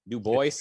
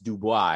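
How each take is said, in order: First: The name is said as spelled, English style. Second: The name is said with a French pronunciation. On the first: The bearer himself said it this way. The speaker calls it right. "I pronounce W W E B Du Bois that way" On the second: People assume it is French because of the spelling. The speaker calls it wrong. "it looks French, so people go, no, no, no, it's Du Bois"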